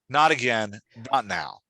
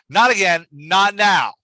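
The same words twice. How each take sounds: First: It is said more quietly, as short punchy statements. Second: It is said loudly, with heated energy. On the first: The lines read as firm two-word statements. The speaker calls it right. "Removing the exclamation point just brings the volume down a little bit" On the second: The lines read as shouted exclamations. The speaker calls it wrong. "you're coming in hot with exclamation points right away"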